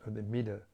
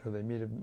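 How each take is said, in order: Both takes have the same delivery.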